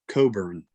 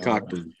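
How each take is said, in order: First: The name is said with no k sound. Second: The name is said with a k sound. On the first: The speaker calls it right. "his last name is pronounced Coburn" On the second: The speaker calls it wrong. "not uh, Cockburn"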